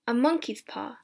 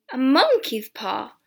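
First: Said in the usual way. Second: Loud, drawn-out incredulous echo; amused exclamation. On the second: A narrator's reading. Son about to laugh at the soldier's paw, incredulous exclamation. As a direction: exclaim it slowly in amused disbelief.

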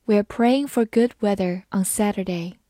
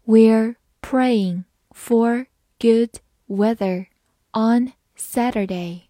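First: Said in the usual way. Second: Very slow, word by word; slow read-through. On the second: Shown as a demonstration. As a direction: read it slowly with a gap after each word. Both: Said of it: "好，慢读一遍".

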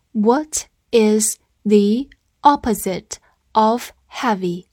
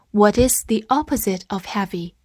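First: Very slow, separated words; slow reading. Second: Said in the usual way. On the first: Shown as a demonstration. Teacher asking learners to read along, slow reading. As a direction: pause after each word so learners can follow. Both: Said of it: "跟我慢读一遍".

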